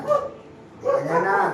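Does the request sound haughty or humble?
humble. It sounds like a humble, pleading beggar. The one asking has nothing and begs. "अरे भिखारी"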